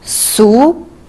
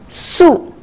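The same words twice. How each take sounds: First: The pitch rises from middle to high. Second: The pitch falls sharply from high to low.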